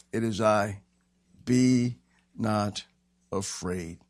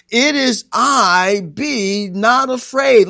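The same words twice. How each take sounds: First: Low, measured, word by word; calm reassurance. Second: Slow, high, ringing declaration; loud proclamation. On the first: Jesus calming the disciples on the sea, low calm reassurance. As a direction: settle lower with pauses between words. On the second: Jesus declaring himself to the disciples, loud slow proclamation. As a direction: stretch each word at full pulpit force. Climax of preached Jesus speech. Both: Acted.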